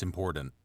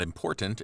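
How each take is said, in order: First: "important" with the middle T softened, as "impordent". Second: "important" with a clear middle T; T pronounced. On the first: Correcting to dialect form, middle T softened. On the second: Showing how it is not said, middle T sounded. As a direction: sound both T's in "important". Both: Shown as a demonstration. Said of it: "leave out, like, the, the T".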